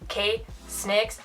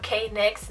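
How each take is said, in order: First: The S is blended straight into nix. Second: The name has no S sound before nix. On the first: The speaker calls it right. "K-Snix with an extra S" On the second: The speaker calls it wrong. "Not K-Nix"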